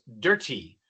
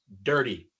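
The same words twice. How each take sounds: First: A British accent with a clear T sound. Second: An American accent with the T tapped. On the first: "no decimos dirty, así hablan en Inglaterra" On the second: "Nosotros decimos dirty"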